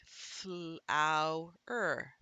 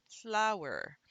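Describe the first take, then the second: First: "flower" slowly split as fl-ow-er; sounded out. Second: Said in the usual way. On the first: Shown as a demonstration. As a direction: pull "flower" apart, one sound group at a time. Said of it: "So I would say". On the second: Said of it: "I would decode it just as easily".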